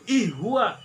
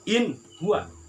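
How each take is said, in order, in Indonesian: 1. Bunyi n menyatu dengan bunyi setelahnya. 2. Bunyi n diucapkan dengan jelas dan tegas. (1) "jadi idgham" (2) "Yang benar adalah in huwa"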